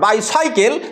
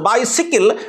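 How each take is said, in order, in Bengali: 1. দ্বিতীয় অংশটি 'cycle' এর মতো শোনায়। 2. দ্বিতীয় অংশটি 'sickle' এর মতো শোনায়। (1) "not बाइसाइकल" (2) "this is बाइसिकल"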